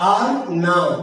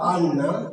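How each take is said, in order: First: The r is kept and the words stay apart. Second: The r merges into a long n sound. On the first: "শব্দটি আর না" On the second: "কিন্তু বলছে আন্না"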